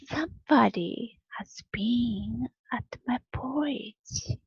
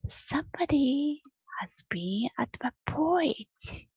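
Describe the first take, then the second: First: It is said in a big, rough, gruff voice. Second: It is said in a middle, moderate voice.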